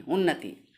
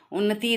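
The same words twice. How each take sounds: First: उन्नति with a short final इ, falling; lower, short-ended उन्नति as the model; correct pronunciation demo. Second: उन्नति with the final ई held long; wrong pronunciation demo. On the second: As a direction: stretch the end of उन्नति as a mistake. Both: Shown as a demonstration. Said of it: "उन्नति नहीं".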